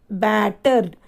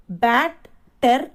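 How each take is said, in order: First: Said in the usual way. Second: "Battered" broken into bat... ter... d; "Battered" spelled out by sound in three separate beats; split into syllables. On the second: Shown as a demonstration. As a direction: say "Battered" piece by piece, pausing between bat, ter and d. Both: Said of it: "So, three syllables here".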